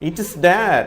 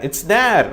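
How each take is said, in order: First: The words it is are said in full. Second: The words it is are contracted together. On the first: "it is னு கூட இல்லை" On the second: "it's there அப்படின்வாங்க"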